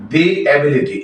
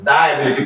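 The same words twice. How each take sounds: First: "the" in "the ability" pronounced dee; long ee vowel in "the" before "ability". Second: "the" in "the ability" mispronounced da. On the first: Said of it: "the ability পড়া যাবে না". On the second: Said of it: "পড়া যাবে না". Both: Shown as a demonstration.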